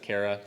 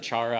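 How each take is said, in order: First: The word begins with a k sound. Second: The word begins with a ch sound. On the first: This is how the speaker personally says it. "I pronounce it Cara" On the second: This is how some other people say it. "some people pronounce it chara"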